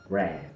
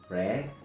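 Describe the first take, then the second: First: The vowel is the more open, tense English E. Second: The vowel is the closer, relaxed Spanish E. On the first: The speaker calls it right. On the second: The speaker calls it wrong.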